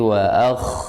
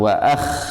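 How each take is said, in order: First: The kh sound flows out softly and gently. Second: The kh sound is pressed hard and forcefully. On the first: The speaker calls it right. "Rohwah. Karena dia lembut bacanya, lunak" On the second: The speaker calls it wrong. "jangan disyiddah, jangan dikuatkan"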